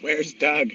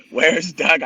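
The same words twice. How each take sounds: First: Said in the usual way. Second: Louder repeat. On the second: Retold or imitated. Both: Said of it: "She goes".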